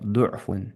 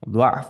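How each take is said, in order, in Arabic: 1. يأتي بعد الحرف الساكن الأول حركة 'u'. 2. يأتي بعد الحرف الساكن الأول حركة 'a'. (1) "ضمة تسديش" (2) "فتحة تسديش"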